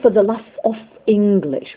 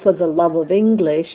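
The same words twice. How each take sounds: First: Final consonants are devoiced in a distinct delivery. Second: Final consonants stay voiced and link smoothly. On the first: The speaker calls it wrong. "they'll say" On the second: The speaker calls it right. "instead of"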